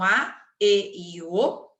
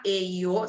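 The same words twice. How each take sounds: First: Slow, spaced E e O; slow letters. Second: Said in the usual way. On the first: Shown as a demonstration. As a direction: draw out each vowel for the class. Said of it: "olha a primeira regrinha". ("E e O" falado devagar, letra por letra) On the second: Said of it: "Se elas terminarem em A".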